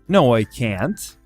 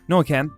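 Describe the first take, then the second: First: The word can't is clearly emphasized. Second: The word can't is said very fast. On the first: "We usually tend to emphasize that word" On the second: "spoken very, very fast"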